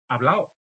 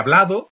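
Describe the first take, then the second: First: The d between the vowels is dropped. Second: The d between the vowels is pronounced. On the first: "la pérdida, en este caso, de la D entre vocales" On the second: "en vez de"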